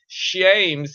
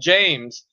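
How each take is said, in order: First: The name begins with an 'sh' sound. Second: The name begins with a 'j' sound. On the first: This is the older form of the name. "when they kept doing sh" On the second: This is the later form of the name. "went to James"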